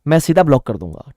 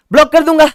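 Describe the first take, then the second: First: Said in the usual way. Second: Shouted much higher and louder; mock threat. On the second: Teacher answering the student's protest, playful shout. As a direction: snap back the threat.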